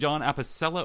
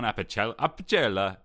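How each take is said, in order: First: The name is pronounced the English way. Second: The name is pronounced the Italian way.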